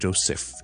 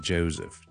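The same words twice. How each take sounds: First: The middle consonant is a hissing S sound. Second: The middle consonant is a buzzing Z sound. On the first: The speaker calls it wrong. "就冇Joseph 咗啦" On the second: The speaker calls it right. "其实我读Z 嘅"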